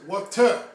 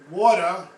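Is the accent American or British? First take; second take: British; American. First: It is said in a British accent. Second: It is said in an American accent.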